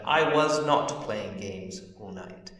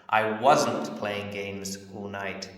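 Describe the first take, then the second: First: The words 'was not' are said in full. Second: The words 'was not' are contracted. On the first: It sounds very formal. The speaker calls it wrong. "This sounds very formal when you say it" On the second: It sounds natural and everyday. The speaker calls it right. "sounds better than"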